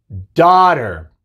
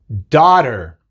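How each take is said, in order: The two takes are said the same way.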